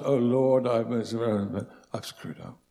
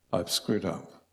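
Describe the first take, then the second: First: "I've screwed up" breathed in an unvoiced hush; hushed, churchy confession; pious whisper. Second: Said in the usual way. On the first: Shown as a demonstration. Preacher mocking a pious confession to God, whispered. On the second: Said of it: "Not, "Oh Lord, I've screwed up".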